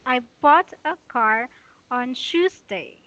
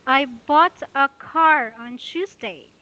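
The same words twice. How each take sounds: First: "bought" leads, "on Tuesday" slows and falls; stress on bought. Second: Slow, with "bought" and "car" lifted and stressed; teacher reads "I bought a car on Tuesday" hitting "bought" and "car". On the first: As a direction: read it again with weight on "bought" and "car". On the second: Teacher models the example sentence for students, stressing bought and car. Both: Shown as a demonstration. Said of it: "the intonation is that bought, car".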